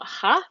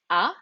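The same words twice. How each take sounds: First: HA with an audible breathy H; wrongly sounded H. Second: A pure open A with no H; A with the H dropped; silent H. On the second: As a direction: say A straight on the vowel. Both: Shown as a demonstration. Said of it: "it's not ha".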